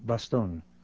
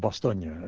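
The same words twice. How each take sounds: First: The name is said in an anglicized way. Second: The name is said the local way.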